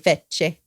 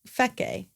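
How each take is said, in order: First: The middle consonant is a 'ch' sound. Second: The middle consonant is a 'k' sound. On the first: The speaker calls it wrong. "I always want to say fecce" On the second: The speaker calls it right. "but it's fe, feke"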